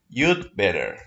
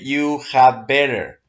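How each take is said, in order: First: The word had is contracted to d. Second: The word had is said in full. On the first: The speaker calls it right. "They say, you'd better" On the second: The speaker calls it wrong. "they don't say you had better"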